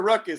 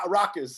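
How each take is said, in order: First: The first syllable sounds like 'ruck'. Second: The first syllable sounds like 'raw'. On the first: The speaker calls it wrong. "I pronounce my bad. I pronounce it ruckus" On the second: The speaker calls it right. "I know it's rock, raucous"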